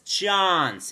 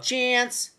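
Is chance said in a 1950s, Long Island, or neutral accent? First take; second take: 1950s; Long Island. First: The word has an old-fashioned 1950s accent. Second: The word has a Long Island accent. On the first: "she has that 50s accent" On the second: "or Long Island style"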